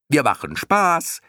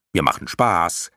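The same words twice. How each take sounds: First: High, drawn-out squeaky call; clown moth calling down. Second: Lightly voiced moth, near usual pitch; explaining moth. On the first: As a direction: crow it down gleefully, slow and high. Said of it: "rief die erste Motte zu Bastian hinunter". (vergnügt hinuntergerufen, hoch und gedehnt) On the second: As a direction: explain it simply, only slightly in character. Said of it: "erklärte eine dritte". (leicht verstellte Mottenstimme, erklärend) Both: A narrator's reading.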